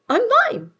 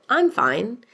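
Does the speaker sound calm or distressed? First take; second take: distressed; calm. First: It is said in a strained, distressed tone. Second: It is said calmly and plainly.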